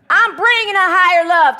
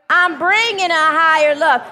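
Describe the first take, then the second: First: It is said with sassy attitude. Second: It is said plainly, without attitude.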